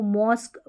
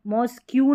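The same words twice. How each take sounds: First: मॉस्क ending on a bare k; corrected mosque. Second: मॉस्क, क्यू run together as "mosk-kyu"; mispronounced mosque. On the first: Teacher giving learners the right word, corrected pronunciation. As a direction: say मॉस्क stopping at the k, no "kyu". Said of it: "मॉस्क बोलना है". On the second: Teacher warning learners off a reading, mispronounced. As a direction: say मॉस्क, क्यू with the final letters read as "kyu". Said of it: "नहीं बोलना है आपको". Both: Shown as a demonstration.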